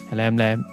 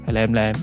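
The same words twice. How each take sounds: The two takes are said the same way.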